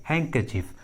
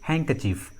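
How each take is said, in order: The two takes are said the same way.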